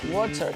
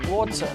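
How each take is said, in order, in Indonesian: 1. Bunyi t-nya jelas dan tegas. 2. Bunyi t-nya jelas dan tegas.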